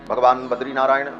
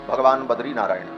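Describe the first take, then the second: No difference in how they are said.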